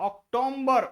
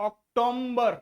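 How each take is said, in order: The two takes are said the same way.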